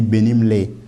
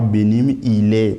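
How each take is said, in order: First: Ile is contracted and joined onto benim. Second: Ile is said as a separate full word. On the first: The speaker calls it right. "on dit benim, les pour et parler beaucoup plus vite" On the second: The speaker calls it wrong. "Sinon, ça fera benim, il est. Non, non"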